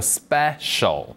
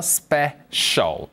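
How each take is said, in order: First: The p sounds tense, like Korean ㅃ. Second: The p sounds like a breathy aspirated p. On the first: "심지어는 빼 발음하셔도 돼요" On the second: "이렇게 발음하면 돼요"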